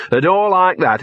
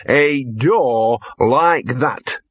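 First: "a door like that" pitched higher; emphatic repeat. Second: "a door like that" very slowly stretched out; ponderous repeat. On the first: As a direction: lift "a door like that" insistently. Dog repeats phrase for emphasis. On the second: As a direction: draw out each word with weight. Dog repeats phrase very slowly. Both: Acted.

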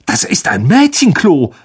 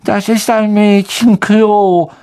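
First: "Das ist ein Mädchenklo" in shocked disbelief; scandalised prefect; appalled. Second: "Das ist ein Mädchenklo" drawn out slowly, high and whiny; suspicious ghost girl. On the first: Percy to Ron, appalled at the girls' toilet. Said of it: "sagte er entsetzt". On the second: Myrte to the boys, slow, high and suspicious. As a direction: eye the boys with distrust. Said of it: "musterte Ron und Harry misstrauisch". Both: Acted.

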